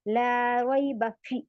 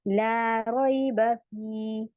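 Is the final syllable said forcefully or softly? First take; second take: forcefully; softly. First: The final syllable is said hard and forcefully. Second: The final syllable is said lightly and softly. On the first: The speaker calls it wrong. "फ़ी को मैं ऐसे नहीं पढ़ रही हूँ... सख्ती नहीं होनी चाहिए" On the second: The speaker calls it right. "नरमी के साथ पढ़ना है"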